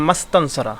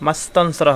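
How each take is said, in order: The two takes are said the same way.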